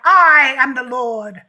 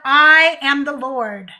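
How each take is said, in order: First: It is read in a grand, put-on deity voice. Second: It is read in her ordinary speaking voice. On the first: "Let me do that" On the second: "she's not using her Lord voice"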